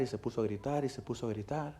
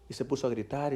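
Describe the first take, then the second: First: Each repeat softer, sinking to almost nothing; fading repetition. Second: Said in the usual way. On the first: Acted. Preacher recalling the boy's screaming, softer each time. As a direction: let the words die away.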